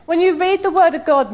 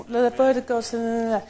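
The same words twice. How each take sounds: First: Said in the usual way. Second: Slow, flat, half-hearted reading of The word of God; bored rote recital; listless mumble. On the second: Shown as a demonstration. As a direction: drone The word of God without meaning it. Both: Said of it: "Don't just".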